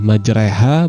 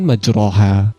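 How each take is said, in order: First: The vowel after r is tilted toward e. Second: The vowel after r is a plain open a. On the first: The speaker calls it right. "Fathah yang dimiringkan kepada kasroh tersebut berubah seolah menjadi suara e" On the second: The speaker calls it wrong.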